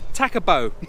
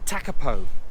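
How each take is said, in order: First: The last consonant sounds more like a B. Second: The last consonant sounds like a clear P. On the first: The speaker calls it right. "they're pronouncing the P as a B" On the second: The speaker calls it wrong. "I said it wrong then"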